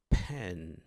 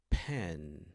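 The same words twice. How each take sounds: No difference in how they are said.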